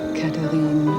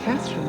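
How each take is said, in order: First: The name is said with a French accent. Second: The name is said with an English accent.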